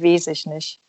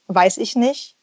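First: The first vowel is a long drawn-out e. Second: The first vowel is the diphthong ei. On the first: This is the Saxon dialect pronunciation. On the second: This is the standard pronunciation. "das EI so sprichst"

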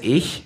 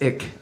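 First: The word ends in a soft hissing sound. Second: The word ends in a hard k sound. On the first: "the word for I is ich, like I-C-H" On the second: "she says ick"

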